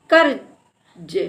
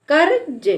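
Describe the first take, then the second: First: कर्ज very slowly split as "कर... ज"; broken into parts. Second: कर्ज with कर and ज drawn closer, higher; blended reading. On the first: Teacher sounding out a written word, कर्ज slowly in two parts. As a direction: stretch कर्ज out, pausing between कर and ज. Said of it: "का के बाद आधे रा". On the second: Teacher repeating the word for learners, कर्ज more joined up. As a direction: say कर्ज as one word, half र before ज. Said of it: "तो कर्ज". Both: Shown as a demonstration.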